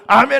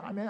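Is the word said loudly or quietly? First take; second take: loudly; quietly. First: The word is said in a big, loud voice. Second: The word is said in a small, quiet voice. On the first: The speaker calls it right. "큰 소리로" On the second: The speaker calls it wrong. "이런 작은 목소리"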